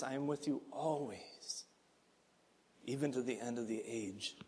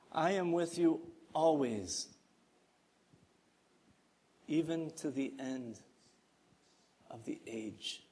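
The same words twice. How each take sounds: First: Quieter, falling away into near hush; hushed repetition. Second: Tender promise. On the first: Pastor repeating the promise to the church, hushed. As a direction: say it again almost under the breath. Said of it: "I pray that those words would echo". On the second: Pastor reading Jesus' promise, softly and tenderly. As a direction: read it gently, like a promise to keep. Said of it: "Listen to this promise". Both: Shown as a demonstration.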